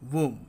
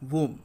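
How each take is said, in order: First: The final b sound is silent. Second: The same.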